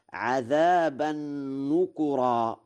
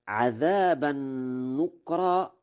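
First: "نكرا" as nukura, kaf with u; damma on kaf. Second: "نكرا" as nukra, kaf unvowelled; silent kaf vowel. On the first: Lecturer demonstrating Warsh's reading, kaf with damma. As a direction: say "نكرا" in three syllables, nu-ku-ra. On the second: Lecturer citing the verse first, kaf with sukun. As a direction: say "نكرا" in two syllables, nuk-ra. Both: Shown as a demonstration. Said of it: "وضم الكاف وإسكانها لغتان".

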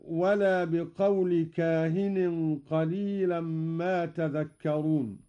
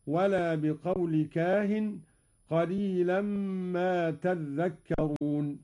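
First: Said in the usual way. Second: "تذكرون" as tadhdhakkarun, with a held ذ; doubled dhal. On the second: Shown as a demonstration. ("تذكرون" بتشديد الذال) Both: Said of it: "قرأ قالون بتشديد الذال هكذا".

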